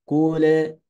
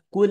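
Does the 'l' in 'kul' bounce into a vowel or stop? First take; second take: bounces; stops. First: The final 'l' bounces into an extra vowel. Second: The final 'l' stops with no extra vowel. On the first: The speaker calls it wrong. "dibacanya mantul" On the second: The speaker calls it right. "harus kul huwallahu ahad"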